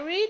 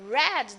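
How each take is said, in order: First: It is pronounced as the present-tense form. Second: It is pronounced as the past-tense form. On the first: The action happens habitually now. "so I'm talking about the present" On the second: The action happened before now. "I'm talking about the past"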